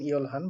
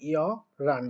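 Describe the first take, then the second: First: The middle h sound is clearly pronounced. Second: The h is dropped and it sounds like r. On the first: The speaker calls it wrong. "এটার উচ্চারণ অনেকে অনেক রকম করেন" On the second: The speaker calls it right. "But এটার উচ্চারণ হবে ইয় রান"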